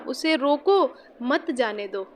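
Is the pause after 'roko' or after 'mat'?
after roko. The pause comes right after 'roko'.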